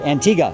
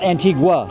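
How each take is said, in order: First: No 'w' sound is heard after the 'g'. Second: A 'w' sound is heard after the 'g'. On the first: The speaker calls it right. "Don't pronounce the U" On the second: The speaker calls it wrong. "Not Antigua"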